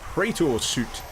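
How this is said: It is said in a British accent. "I'm British, so that's the way I'm going to pronounce it"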